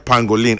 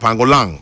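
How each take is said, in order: First: The name is pronounced the English way. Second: The name is pronounced the French way. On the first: The speaker calls it wrong. "I was doing too English" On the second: The speaker calls it right. "French pronunciation"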